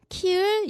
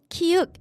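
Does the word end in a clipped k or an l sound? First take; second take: l sound; clipped k. First: The word ends with an l-like sound. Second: The word ends with a short clipped consonant. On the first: The speaker calls it wrong. "키을 이렇게 발음해요" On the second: The speaker calls it right. "키읔 이런 거 발음할 때"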